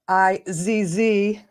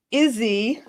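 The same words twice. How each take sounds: First: "I Z Z" spelled slowly, letter by letter. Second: "Izzy" read as one word, EE-zee; trying "Izzy" as a name, unsure. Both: Shown as a demonstration. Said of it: "I don't even know how to pronounce this".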